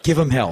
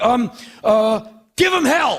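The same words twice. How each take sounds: First: Self-mocking. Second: Much higher, louder, fumbling cheer; awkward blurt. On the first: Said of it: "You weirdo". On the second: Retold or imitated. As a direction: blurt it out, grasping for words. Blurting farewell to Paul.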